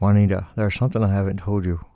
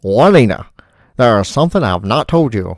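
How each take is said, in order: First: It is said in the speaker's ordinary accent. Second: It is said in an old-fashioned transatlantic accent.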